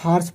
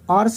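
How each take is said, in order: First: The word begins with an h sound. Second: The word begins without an h sound. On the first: The speaker calls it right. "यच को लेकर पढ़ रहे हैं, हॉर्स पढ़ रहे हैं" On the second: The speaker calls it wrong. "ऑर्स नहीं पढ़ रहे हैं"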